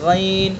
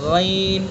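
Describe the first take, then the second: No difference in how they are said.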